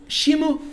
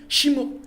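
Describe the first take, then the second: Both takes have the same delivery.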